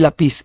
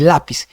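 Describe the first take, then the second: First: "lápiz" wrongly stressed on PIZ; stress on last syllable. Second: "lápiz" stressed on LA; stress on first syllable. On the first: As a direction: throw the accent onto PIZ in "lápiz". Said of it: "no es lápiz". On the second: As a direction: hit LA and drop PIZ in "lápiz". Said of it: "es lápiz". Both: Shown as a demonstration.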